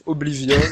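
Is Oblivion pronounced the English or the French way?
English. The name is pronounced the English way. "c'est moche. on dirait le prénom d'une meuf"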